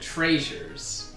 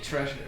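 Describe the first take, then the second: First: The first vowel is a long 'ay', like Frasier. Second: The first vowel is the usual short 'eh' sound.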